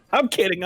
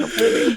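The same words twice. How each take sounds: First: Said in the usual way. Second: "I'm kidding" jumped way up high, teasing; high mock kidding. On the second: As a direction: squeak "kidding" up high to tease.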